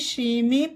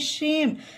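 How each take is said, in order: First: The word ends with an extra vowel sound. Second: The word ends on the m sound. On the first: The speaker calls it wrong. "इसे भी शेमे पढ़ना गलत होगा" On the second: The speaker calls it right. "इसे पढ़ेंगे शेम"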